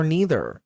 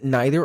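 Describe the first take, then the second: First: "neither" as NEE-ther; long-E pronunciation. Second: "neither" as NIGH-ther; long-I pronunciation. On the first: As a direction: rhyme the start of "neither" with knee. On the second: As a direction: rhyme the start of "neither" with eye. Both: Shown as a demonstration. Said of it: "say either or either differently".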